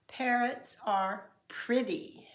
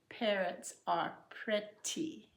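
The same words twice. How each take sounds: First: The middle of pretty sounds like a soft d. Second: The middle of pretty is a clear t. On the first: "d instead of t" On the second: "instead of"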